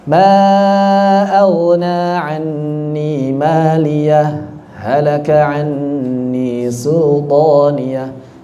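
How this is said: A brief stop separates maliyah from halaka. "Kita baca dengan sakat"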